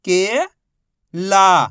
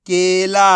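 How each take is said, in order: First: Each syllable held, long pause between; first syllable rising, then a separate second. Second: Whole word in one joined, drawn-out piece; teacher's blended model reading; syllables blended. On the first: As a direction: sound it out for beginning readers. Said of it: "एक ही अक्षर का उच्चारण करके". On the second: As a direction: join the sounds into one loud, clear word. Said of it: "आपस में मिला के पढ़ना है". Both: Shown as a demonstration.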